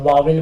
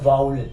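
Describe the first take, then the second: First: The middle sound is a 'v' sound. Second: The middle sound is a 'w' glide. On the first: The speaker calls it wrong. "मिस pronounce करते हैं वावल बोलकर" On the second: The speaker calls it right. "ये होता है वाउल"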